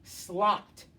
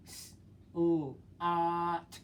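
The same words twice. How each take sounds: First: Slot said as one quick word; blended. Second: S-, o-, at tapped out sound by sound. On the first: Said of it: "Read it fast". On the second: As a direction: break S-, o-, at into separate sounds. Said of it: "Tap it out". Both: Shown as a demonstration.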